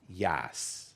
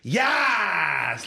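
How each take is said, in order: First: It is said calmly, like a normal word. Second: It is shouted like a drunken scream.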